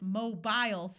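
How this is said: British accent, long I in the second syllable. "British English says mobile phones, where there is a long I sound in the second syllable"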